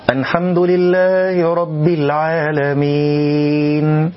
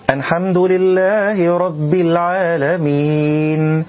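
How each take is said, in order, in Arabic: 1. تُنطق اللام غنّةً، قريبةً من النون. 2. تُنطق اللام غنّةً، قريبةً من النون.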